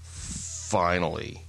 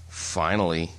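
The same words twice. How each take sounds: First: It sounds strongly passive-aggressive. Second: It sounds only mildly passive-aggressive.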